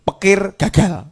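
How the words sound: The first word begins with a p sound.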